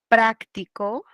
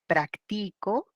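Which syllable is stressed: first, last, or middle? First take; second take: first; middle. First: The stress is on the first syllable. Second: The stress is on the middle syllable.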